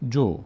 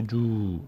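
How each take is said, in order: First: جو as one brief syllable; short vowel. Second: جو with the vowel dragged out long; overstretched vowel. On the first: Teacher shows learners damma is just a short vowel, brief take. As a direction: cut the vowel of جو short, no stretching. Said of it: "فقط یک حرکت کوتاهه". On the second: Teacher warns learners not to stretch the damma, drawn-out wrong take. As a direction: stretch the vowel of جو far too long, as a mistake. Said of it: "زیادم کش ندید". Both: Shown as a demonstration.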